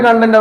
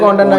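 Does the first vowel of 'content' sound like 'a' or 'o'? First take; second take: a; o. First: The first vowel is a short 'a' sound. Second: The first vowel is an 'o' sound. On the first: The speaker calls it wrong. "ഞാനും പണ്ട് കണ്ടന്റ് പറഞ്ഞു" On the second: The speaker calls it right. "ഇപ്പൊ കോണ്ടന്റ് ആക്കി"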